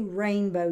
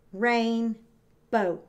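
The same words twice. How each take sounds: First: Said in the usual way. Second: Rainbow broken into rain, pause, bow; a clear gap after rain in rainbow; split into syllables. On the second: Shown as a demonstration. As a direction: say rainbow as two separate beats. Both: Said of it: "Rain is gonna be my first syllable".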